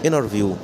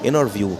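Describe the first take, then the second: No difference in how they are said.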